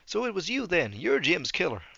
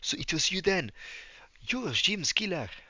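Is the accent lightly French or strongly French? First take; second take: lightly French; strongly French. First: It is spoken with little French accent. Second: It is spoken with a strong French accent. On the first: "There we go" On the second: "he probably should have more of a French accent"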